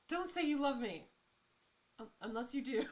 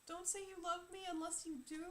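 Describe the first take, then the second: First: There is a pause after 'love me'. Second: It is said as one unbroken phrase.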